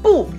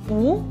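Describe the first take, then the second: First: The pitch falls sharply from high to low. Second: The pitch rises from middle to high. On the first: "le caractère 不 en quatrième don" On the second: "en 不 deuxième don"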